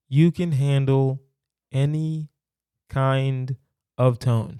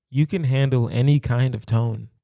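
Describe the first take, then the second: First: "you can handle ... any ... kind ... of tone" slow, each word set apart by pauses; each word spaced out with pauses. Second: Said in the usual way. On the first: Shown as a demonstration. To a podcast listener, driving the point home with pauses. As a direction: spell it out word by word for emphasis. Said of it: "Low key". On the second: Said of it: "Low key, you can handle any kind of tone".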